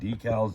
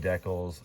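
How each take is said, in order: First: It is said with a non-Canadian pronunciation. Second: It is said with the Canadian pronunciation. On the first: This is how people elsewhere say it. "I watch so much stuff from everywhere else that I find myself saying decals" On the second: This is how the speaker's home country says it. "I'm Canadian. I say decals"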